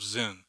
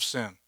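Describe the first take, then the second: First: Zin said with a buzzing z sound. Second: Sin said with an s sound, like the English word; sin as in wrongdoing, hissing s; plain English sin. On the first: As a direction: Zin with a voiced z, not sin. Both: Shown as a demonstration. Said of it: "not what we call sin".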